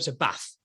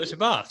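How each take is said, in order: First: Bath has a short northern vowel. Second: Bath has a long southern vowel.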